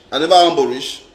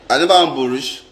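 Both takes have the same delivery.

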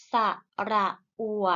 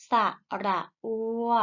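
First: อัว cut short with an abrupt stop; short vowel. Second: อัว held long and left open; long vowel. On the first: Teacher models vowels for pupils to repeat, short อัว. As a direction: say ระอัว with a brief, checked final glide. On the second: Teacher models vowels for pupils to repeat, long อัว. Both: Shown as a demonstration. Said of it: "ไปฝึกอ่านออกเสียงสระ".

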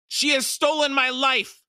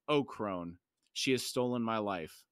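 First: High, loud outcry of accusation; anguished scream. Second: Low, subdued lament; soft cry. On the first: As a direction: scream it out at full pitch. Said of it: "The Maib screamed". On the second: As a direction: say it softly, in sorrow. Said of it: "She softly cried". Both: A narrator's reading.

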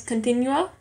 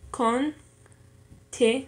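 First: Said in the usual way. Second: Slow "continuo" in three pieces, con, ti, nuo; syllable by syllable. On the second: Shown as a demonstration. Learner dividing a word for an exercise, "continuo" syllable by syllable. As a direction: break "continuo" up, keeping "nuo" as one syllable. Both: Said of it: "con y ti".

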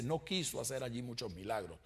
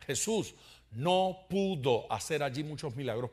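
First: Soft, quoting what the text does not say; the wrong reading. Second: No pudo leaned on as the right reading; stress on no pudo. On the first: Preacher quoting the misreading to his congregation, softly. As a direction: set it aside gently as the wrong version. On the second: Preacher correcting the reading for his congregation, weighting no pudo. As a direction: weigh "no pudo" so it lands as the point. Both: Shown as a demonstration. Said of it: "fíjese que no dice".

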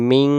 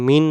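First: মিং with a held ng hum; nasal ng ending. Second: মিন with a clear tongue-tip n; plain n ending. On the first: Teacher giving the correct sound, মিং with ng. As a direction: hold the end of মিং in the nose. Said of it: "উচ্চারণটা হবে মিং". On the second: Teacher showing what not to say, মিন with plain n. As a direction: end মিন on n, no nasal hum. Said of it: "এখানে মিন না". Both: Shown as a demonstration.

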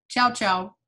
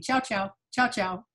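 First: "Ciao, ciao" quick Italian style. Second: "Ciao, ciao, ciao, ciao" tossed off fast in pairs; quick double ciao. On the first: Retold or imitated. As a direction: say "Ciao, ciao" brisk and light, Italian greeting. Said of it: "they said". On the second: Shown as a demonstration. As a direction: rattle off "Ciao, ciao" twice quickly. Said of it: "they said it twice quickly".

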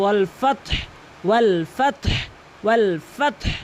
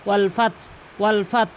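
First: ওয়াল ফাতহ ending in a breathy h; final h sounded. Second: ওয়াল ফাত cut off at the t; dropped final h. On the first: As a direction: let breath out after t in ফাতহ. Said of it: "এখানে বলতে হবে". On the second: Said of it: "অধিকাংশ লোক বলে". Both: Shown as a demonstration.

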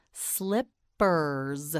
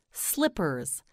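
First: "Slippers" slowly, gap between slip and pers; syllable by syllable. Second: Said in the usual way. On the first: Shown as a demonstration. Teacher models for learner, "Slippers" in slow separate syllables. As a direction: break "Slippers" into two drawn-out syllables. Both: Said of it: "You say it".

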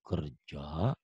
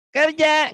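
First: Kerja said low and soft with a rise; the right way, low and weighty; deep adult voice. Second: Kerja squeaked much higher and louder; wrong high voice. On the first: (Kerja diucapkan rendah dan berwibawa) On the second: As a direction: show the wrong, childish way. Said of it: "nggak gitu ya". (Kerja dengan suara tinggi melengking, salah) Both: Shown as a demonstration.

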